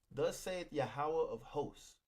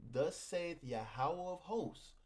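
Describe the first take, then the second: Both takes have the same delivery.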